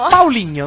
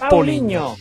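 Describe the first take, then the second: First: The name begins with the sound 'Pao'. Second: The name begins with the sound 'Po'. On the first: The speaker calls it right. "Paoligno, non è Poligno" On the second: The speaker calls it wrong. "non è Poligno"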